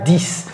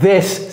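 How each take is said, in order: First: It begins with a d sound, like dix. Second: It begins with a th sound, tongue out. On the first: The speaker calls it wrong. "C'est pas dix" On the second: The speaker calls it right. "Sortez votre langue"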